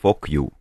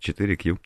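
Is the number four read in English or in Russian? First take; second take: English; Russian. First: The four is said as the English word. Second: The four is said as the Russian word. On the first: "Читаем мы это как for Q" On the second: "вы можете просто называть это 4Q"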